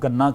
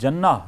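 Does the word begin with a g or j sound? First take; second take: g; j. First: The word begins with a hard g sound. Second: The word begins with a j sound. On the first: "मिस्री जो हैं जीम को गाफ बोलते हैं" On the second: "कुरैशी लहजे में जन्ना लफ्ज़ कहा जाता है"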